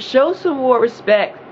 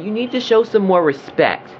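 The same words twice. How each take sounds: First: Each word of Show some more respect drawn out slowly and high; slow emphatic demand. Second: Said in the usual way. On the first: Real, not acted. Repeated demand in rant.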